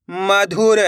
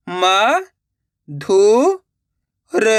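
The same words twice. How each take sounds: First: Said in the usual way. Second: म, धु, र with a pause after each; syllable by syllable. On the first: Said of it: "direct मात्रा का उच्चारण करके पढ़ेंगे". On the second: Shown as a demonstration. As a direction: sound out म, धु, र separately. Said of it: "एक एक अक्षर का उच्चारण करके". (म, धु, र एक-एक अक्षर रुक-रुक कर)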